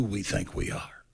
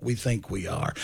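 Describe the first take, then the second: First: Whisper. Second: Said in the usual way. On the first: Shown as a demonstration. Repeated line, dropped to whisper.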